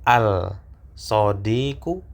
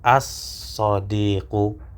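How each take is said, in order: First: The L of the article is clearly pronounced. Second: The L merges into a doubled S sound. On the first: The speaker calls it wrong. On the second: The speaker calls it right.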